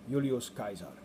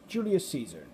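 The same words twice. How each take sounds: First: Caesar begins with a hard K sound. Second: Caesar begins with a soft S sound. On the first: This is how the Romans said it. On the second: This is the modern English name.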